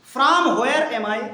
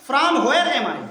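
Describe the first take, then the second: First: Drawn out, word by word; teacher drilling the question slowly for students; slow model reading. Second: Said in the usual way. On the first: Shown as a demonstration. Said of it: "teacher models the question slowly". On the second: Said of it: "first plain reading".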